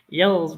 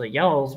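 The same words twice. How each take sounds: First: Y'alls with a flat eh vowel, yelz, louder and falling; Georgia y'alls. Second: Y'alls with an open aw vowel, yawlz, falling; drawn-out yawlz, dropping at the end; Georgia y'alls. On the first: Asked for a Georgia accent, trying yelz. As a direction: punch a higher, louder yelz. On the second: Asked for a Georgia accent, trying yawlz. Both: Shown as a demonstration. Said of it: "do a Georgia accent".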